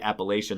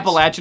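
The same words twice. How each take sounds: First: It is pronounced in the northern style. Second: It is pronounced in the southern style. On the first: "most northerners say" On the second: "a southern more style to say"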